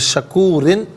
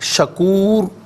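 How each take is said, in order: First: The r is thin, followed by an -in ending. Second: The final r is full and heavy, unvoweled. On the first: The reciter continues without stopping. "शकूरिन बारीक पढ़ा" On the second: The reciter stops at this word. "रा साकिन को पुर करके पढ़ा जाएगा"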